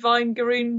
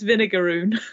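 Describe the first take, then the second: First: The word is said with three syllables. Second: The word is said with four syllables. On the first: The speaker calls it wrong. "I've been reading Vingaroon wrong" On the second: The speaker calls it right. "What I should be saying is Vinegaroon"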